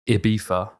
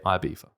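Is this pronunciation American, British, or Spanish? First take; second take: Spanish; British. First: It is said the Spanish way, without a z sound. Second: It is said the British way. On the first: "the Spanish say Ibiza, so they say it with the F, not the Z" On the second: "and then we say Ibiza"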